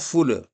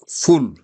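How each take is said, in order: First: The word ends with an extra vowel sound. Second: The word ends on a bare final consonant. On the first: The speaker calls it wrong. "et non full" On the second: The speaker calls it right. "c'est full"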